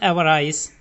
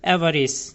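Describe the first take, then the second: First: The last syllable sounds like 'ice'. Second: The last syllable sounds like 'iss'. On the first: The speaker calls it wrong. "एवराइस नहीं पढ़ते" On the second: The speaker calls it right. "इसको बोलेंगे एवरिस"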